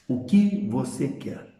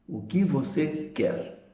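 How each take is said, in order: First: Slow direct question, falling on "que"; question intonation. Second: Slow, soft question, "que" stressed; question intonation. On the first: Teacher showing students the tone of a direct question. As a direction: ask "o que você quer?" slowly, leaning on "que". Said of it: "feita com entonação característica". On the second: Teacher repeating the direct question slowly for the class. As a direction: ask "O que você quer?" slowly and softly, weight on "que". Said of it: "Entonação característica de interrogação". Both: Shown as a demonstration.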